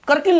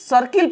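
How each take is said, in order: First: The word begins with a k sound. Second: The word begins with an s sound. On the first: The speaker calls it wrong. "इसको हमने करकिल नहीं पढ़ा" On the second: The speaker calls it right. "इस सर्किल पढ़ेंगे"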